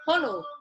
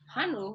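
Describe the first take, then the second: First: The first vowel sounds like 'oh'. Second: The first vowel sounds like 'ah'. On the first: This is the proper pronunciation. The speaker calls it right. "oh, you mean Honu?" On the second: Someone else mispronounced the word. The speaker calls it wrong. "the Hanu got me though"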